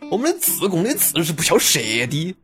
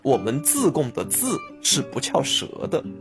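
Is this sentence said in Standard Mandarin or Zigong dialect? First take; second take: Zigong dialect; Standard Mandarin. First: It is said in a Zigong dialect accent. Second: It is said in a Standard Mandarin accent. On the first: "用自贡话说就是" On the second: "普通话是这么说的"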